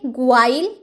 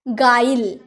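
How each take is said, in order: First: The word begins with a 'gw' sound. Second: The word begins with a plain 'g' sound. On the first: The speaker calls it wrong. "ग्वाइल तो नहीं बोलेंगे" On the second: The speaker calls it right. "यू का sound आया नहीं ना"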